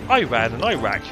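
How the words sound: Said with an American pronunciation. "The Americans pronounce it"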